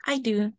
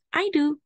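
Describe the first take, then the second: First: Lightly voiced dad, near plain; a hint of father, relaxed. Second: Lightly voiced little girl, higher; eager child's answer, pitched up. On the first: Daddy answering about breakfast, lightly voiced father. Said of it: "said Daddy". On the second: Sarah answering Mommy about breakfast, light high child voice. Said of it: "I said". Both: A narrator's reading.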